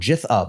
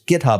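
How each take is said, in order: First: It starts with a soft G sound. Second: It starts with a hard G sound.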